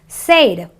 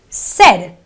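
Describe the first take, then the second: First: The vowel is a long 'ay' sound. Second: The vowel is a short 'eh' sound. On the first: The speaker calls it wrong. "non-English uh, speakers sometimes pronounce this word as said. It's not an A sound" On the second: The speaker calls it right. "It is a eh sound. So it is a said, an eh sound"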